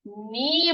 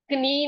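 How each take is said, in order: First: नी as slow "nee", k dropped; long नी starting on n; silent k. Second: कनी with k sounded before n; wrong pronunciation. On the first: Teacher giving the right word for knee, silent k. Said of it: "के वहां पर silent है". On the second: Teacher showing what we won't say, wrong pronunciation. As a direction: put a k on the front, कनी as "k-nee". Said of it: "कनी नहीं बोलेंगे". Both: Shown as a demonstration.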